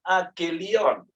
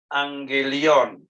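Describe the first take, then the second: First: It is said with a plain g, no nasal. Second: It is said with an ng sound before g. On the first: The speaker calls it wrong. "Dia mengatakan agelion. Itu salah ya" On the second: The speaker calls it right. "Yang benar adalah angelion"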